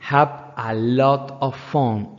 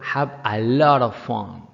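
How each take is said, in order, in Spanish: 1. La frase se dice despacio y con cuidado. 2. La frase se dice rápido, con las palabras unidas.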